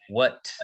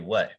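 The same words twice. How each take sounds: First: The word ends with a clearly released T. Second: The word ends with a glottal stop. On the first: "we don't really say what" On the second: "So that's a glottal stop"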